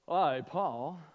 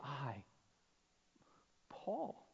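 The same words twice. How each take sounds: First: It is said plainly, matter-of-factly. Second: It is said with wonder and disbelief.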